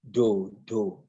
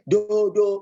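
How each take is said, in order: First: The word is said on a low tone. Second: The word is said on a higher tone. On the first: It names one particular thing. "it's a lower tone do do" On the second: It names a different thing. "When you say do do, you are calling something else"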